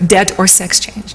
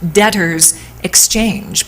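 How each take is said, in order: First: The phrase is said quickly, running the words together. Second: The phrase is said at a normal, careful pace. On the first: The speaker calls it wrong. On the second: The speaker calls it right.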